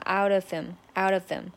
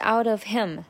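First: The h in 'him' is dropped and linked. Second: The h in 'him' is clearly pronounced. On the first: "这里也是把h 给吞掉，就变成了out of him" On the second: "本来是out of him"

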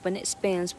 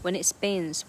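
First: It is said at normal speed. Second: It is said slowly.

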